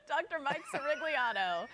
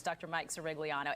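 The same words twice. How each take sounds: First: Name rolled out with a laugh; savoring the name, laughing. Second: Said in the usual way. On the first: Real, not acted. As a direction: relish every syllable, giggling. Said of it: "it does roll off the tongue". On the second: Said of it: "I just wanna say your last name".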